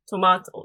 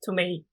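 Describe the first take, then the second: First: "Tomato" with a long "ah" vowel, tomahto; "Tomato" as Australians say it, tomahto; British tomato. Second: "toma-" cut off with an American "may" vowel; "toma-" begun as American tomayto; American tomato. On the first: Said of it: "British or Australian accent is". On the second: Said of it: "British or Australian accent is, like, toma". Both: Shown as a demonstration.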